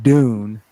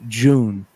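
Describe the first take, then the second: First: It begins with a plain hard D sound. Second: It begins with a J-like sound. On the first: This is how Americans say it. "So we say it Dune" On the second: This is how English people say it. "English people say it with like a J sound"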